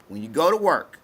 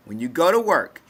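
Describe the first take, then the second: No difference in how they are said.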